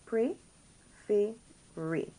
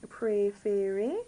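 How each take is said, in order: First: "Préférer" very slowly, broken into three separate syllables; teacher's slow breakdown of "Préférer", each é held clearly. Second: Said in the usual way. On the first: Shown as a demonstration. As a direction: sound out "Préférer" with a gap after each syllable. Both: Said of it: "You get that A sound".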